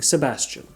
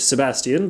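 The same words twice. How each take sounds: First: The name is said in a plain, ordinary way. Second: The name is said in a fancy, refined way. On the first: "than saying Sebastian" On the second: "they pronounce it Sebastian because that is significantly fancier"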